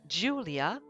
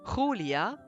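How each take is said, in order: First: The name is said with an English pronunciation. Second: The name is said with a Spanish pronunciation. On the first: "In English, you would say Julia" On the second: "Spanish, you would say Julia"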